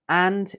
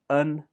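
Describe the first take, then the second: First: The word is said with a full vowel. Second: The word is said with a reduced vowel.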